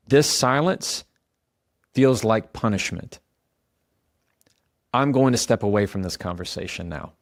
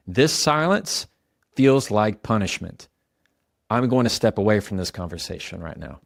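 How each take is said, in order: First: Calm statement. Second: Measured, even and calm; calm statement. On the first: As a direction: state it calmly and leave room after each phrase. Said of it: "It sounds like this". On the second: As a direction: say it steadily without pleading. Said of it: "You hear that?". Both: Shown as a demonstration.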